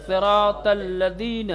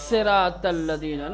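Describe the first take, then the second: First: صراط الذین with a thin, hissing s, the wrong way. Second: صراط الذین with a heavy, thick s; correct emphatic sad. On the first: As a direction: say صراط الذین with a light s, as the mistake. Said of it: "نہیں کہیں گے". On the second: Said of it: "نا،". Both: Shown as a demonstration.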